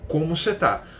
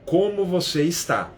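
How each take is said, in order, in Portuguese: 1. A última palavra é encurtada, como em tá. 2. A última palavra é dita por completo, como em está. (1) "você vai ver as pessoas reduzindo assim" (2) "a frase é"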